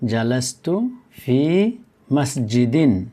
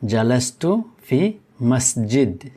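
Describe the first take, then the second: First: The last word ends with its full '-in' ending. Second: The last word ends without the '-in' ending. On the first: "এটি হলো জালাস্তু ফি মসজিদিন" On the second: "আমরা মসজিদিনকে পড়ব মসজিদ, কারণ আমরা এখানে থামবো"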